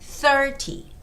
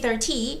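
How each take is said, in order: First: The stress is on the first syllable. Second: The stress is on the second syllable. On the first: It means three zero. The speaker calls it right. "make sure you have the stress on the first syllable" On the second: It sounds like one three. The speaker calls it wrong. "if you say thirty, it sounds like thirteen"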